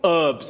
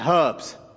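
First: The word begins without any h sound. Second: The word begins with an audible h sound.

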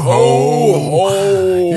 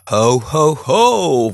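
First: It is said in a Santa Claus voice. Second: It is said in a plain, un-Santa-like voice.

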